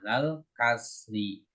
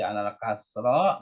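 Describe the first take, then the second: First: The last word ends with an i vowel. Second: The last word ends with an a vowel. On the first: The speaker calls it right. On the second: The speaker calls it wrong. "Nggak boleh dibaca alal kasro"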